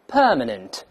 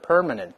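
First: The first syllable has a British, non-rhotic vowel. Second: The first syllable has an American, r-colored vowel. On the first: "英联邦国家的人会读成permanent" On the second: "美式呢把这per 变成per permanent"

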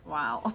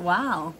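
First: It sounds mocking and taken aback. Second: It sounds genuinely impressed and admiring.

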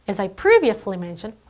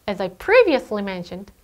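The two takes are said the same way.

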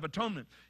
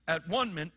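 First: It is said smoothly as one single word. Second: It is split into separate parts: at-one-ment. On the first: It means making amends for sin. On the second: It means being at one with God.

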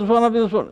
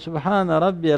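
First: It is rushed, with sounds swallowed together. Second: It is slow, with each sound said distinctly. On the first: The prayer is being hurried through. The speaker calls it wrong. "harflerini yutarak, harflerini birbirine katarak" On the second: The prayer is said with devotion. The speaker calls it right. "tane tane"

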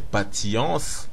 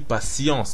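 First: The middle consonant is a hard t sound. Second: The middle consonant is an s sound. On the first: "au lieu de dire patience" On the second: "on dit patience, donc le T se prononce S"

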